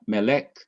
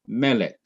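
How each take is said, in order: First: Melek with the stress wrongly on lek, rising at the end; wrong final stress. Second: Melek with the stress on me, falling away on lek; stress on first syllable. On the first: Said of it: "is not the last syllable". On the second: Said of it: "that me must be emphasized". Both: Shown as a demonstration.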